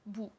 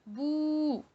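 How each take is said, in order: First: The vowel is held only briefly. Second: The vowel is held about twice as long. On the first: "la voyelle brève" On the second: "avec la voyelle longue"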